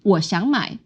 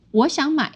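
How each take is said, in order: First: 我想买 with 想 rising between dips; first melody option. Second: 我想买 starting high, dropping on 买; second melody option. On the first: Teacher offers one of two acceptable melodies, first option. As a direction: lift 想 within 我想买. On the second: Teacher offers the other acceptable melody, second option. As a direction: keep 我想 up, then dip on 买. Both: Shown as a demonstration. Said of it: "sometimes it flows in a different way".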